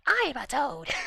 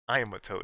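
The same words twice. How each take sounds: First: It is said in a put-on toad voice. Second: It is said in the speaker's normal voice.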